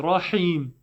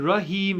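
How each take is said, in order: First: "Rahim" with rounded ra and clear ee; full RA, active HIM. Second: "Rahim" with a short, thin first vowel; empty-mouth ra in "Rahim". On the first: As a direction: fill the mouth on "Rahim", then a tight i. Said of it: "You're praying Rahim". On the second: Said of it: "You're not praying Rahim". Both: Shown as a demonstration.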